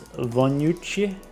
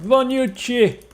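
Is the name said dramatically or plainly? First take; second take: plainly; dramatically. First: The name is said in a plain, calm way. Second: The name is said in a dramatic, energetic way. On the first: "that's how I pronounce it" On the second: "Usually it's more dramatic than that"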